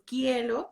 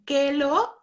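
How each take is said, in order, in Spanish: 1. El diptongo y la r se pronuncian completos. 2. Se pierde el diptongo y la r se convierte en l. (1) "y ya después quiero" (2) "antes dicen quelo"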